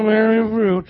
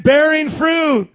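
First: Mock half-hearted mumble, imitating the crowd; unenthused congregation. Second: Loud, high, drawn-out rallying cry; excited. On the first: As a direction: mumble it back with no excitement. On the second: Shown as a demonstration. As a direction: call it out slowly with big excitement. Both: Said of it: "say it like you're excited".

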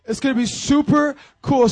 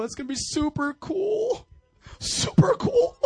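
First: Laughing. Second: Squeaky, laughing super cool; silly high voice. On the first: Real, not acted. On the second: Pretend. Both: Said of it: "I'm trying different things up here".

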